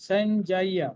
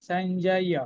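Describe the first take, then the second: The two takes are said the same way.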